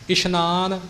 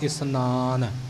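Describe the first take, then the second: First: The middle consonant is an 'sh' sound. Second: The middle consonant is a plain 's' sound. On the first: The speaker calls it wrong. "ਸੱਸੇ ਦੇ ਪੈਰ ਬਿੰਦੀ ਆਪਣੇ ਕੋਲੋਂ ਹੀ ਬੋਲਦੇ ਹਾਂ, ਇਸ਼ਨਾਨ ਇਉਂ ਉਚਾਰਨ ਕਰਦੇ ਹਾਂ" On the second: The speaker calls it right. "ਇਉਂ ਸ਼ੁੱਧ ਉਚਾਰਨ"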